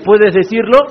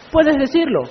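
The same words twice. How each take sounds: First: "puedes decirlo" rising at the end as a question; rhetorical question. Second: "Puedes decirlo" higher and softer, falling at the end; conceding answer. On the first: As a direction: ask "puedes decirlo" with an upward final lift. Question, then his own answer. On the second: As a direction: answer "Puedes decirlo" softly from high pitch, dropping to a close. Answers his own rhetorical question. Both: Acted.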